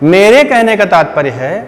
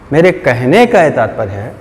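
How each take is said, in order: First: The stress falls on the word मेरे. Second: The stress falls on the word कहने. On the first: "देखो मैंने मेरे पे जोर दिया" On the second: "मैंने कहने पे जोर दिया"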